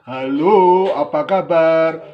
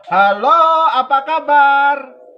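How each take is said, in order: First: It is said in a big, deep voice. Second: It is said in a natural, unchanged voice. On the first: "Suara satu tadi yang besar" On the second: "Suara dua"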